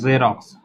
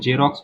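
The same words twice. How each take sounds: First: The word begins with a z sound. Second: The word begins with a j sound. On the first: The speaker calls it right. "ज, ज, ज, जेरोक्स" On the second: The speaker calls it wrong. "बहुत कोई इसको जेरोक्स पढ़ता है, लेकिन ये जेरोक्स नहीं है, जॉ नहीं है"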